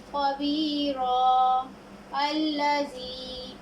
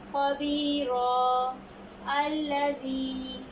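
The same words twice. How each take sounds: First: The first word ends in 'a' before a stop. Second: The same.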